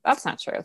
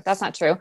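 First: Breathy whispered "That's not true.". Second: Said in the usual way. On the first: Shown as a demonstration. Reading it back, whispering "That's not true.". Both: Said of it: "you go".

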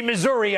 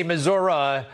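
First: "Missouri" with a final "ee" sound; Missouri ending in -ee. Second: "Missouri" ending in a relaxed "uh"; local Missoura pronunciation. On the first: Host tells the Missouri attorney general his own way, "Missouri" ending in -ee. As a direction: say "Missouri" as mih-ZUR-ee. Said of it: "I do say Missouri". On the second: Host quotes how Missouri locals say it, "Missouri" ending in -uh. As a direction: say "Missouri" as mih-ZUR-uh. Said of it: "I know you guys say". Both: Shown as a demonstration.

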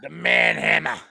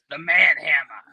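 First: Put-on low, heavy Austrian-accented growl; Arnold Schwarzenegger impression. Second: Manhammer in a hammed-up Boston accent. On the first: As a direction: say it like an action hero. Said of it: "that was the Arnold Schwarzenegger". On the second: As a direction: announce it like a Boston tough guy. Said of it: "with the Boston voice".

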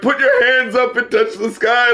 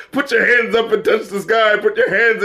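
First: Mock hype man call to the crowd. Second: Disbelieving, mocking echo; incredulous repeat. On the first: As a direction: pump up the crowd, tongue in cheek. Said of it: "[name]'s trying to be a fucking hype man". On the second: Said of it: "really, [name]?".

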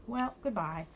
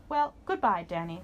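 First: A small, plain goodbye; Danny farewell. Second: Dinosaur farewell. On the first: Danny says goodbye back to the dinosaur, near plain. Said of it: "said Danny". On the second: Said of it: "said the dinosaur". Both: A narrator's reading.

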